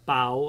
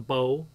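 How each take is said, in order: First: The word rhymes with cow. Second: The word rhymes with toe. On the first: The speaker calls it wrong. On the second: The speaker calls it right. "because it rhymes with toe"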